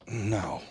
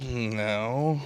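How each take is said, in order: First: Low muttered no from the side of the mouth. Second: Low curt no through a curled lip. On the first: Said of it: "out of the side of the mouth". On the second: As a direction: curl your lip and mutter no. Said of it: "like that lip curled?". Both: Shown as a demonstration.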